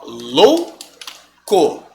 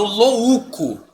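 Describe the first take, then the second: First: Very slow louco, "lou... co"; correct syllable split. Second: Louco as "lo-Ú-co"; three syllables in louco, stress the separate Ú; wrong stress on u. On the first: Teacher demonstrating the division, louco as lou... co. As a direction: keep ou together in louco, long pause, then co. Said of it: "Como é que eu separo louco?". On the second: Teacher showing what nobody says, louco as lo-Ú-co. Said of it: "Eu não falo louco". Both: Shown as a demonstration.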